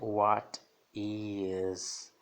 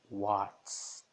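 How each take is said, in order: First: Both words are said separately in full. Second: The two words are joined into one contraction. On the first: "na forma completa é what is" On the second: "na forma contracta ... então fica what's"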